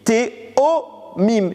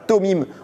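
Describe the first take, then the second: First: The word has three syllables, Te-o-mim. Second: The word has two syllables, To-mim. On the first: This is the usual word for twins. The speaker calls it right. "on dit Théomim" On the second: This is the shortened form written in the verse. The speaker calls it wrong. "On dit pas Tomim"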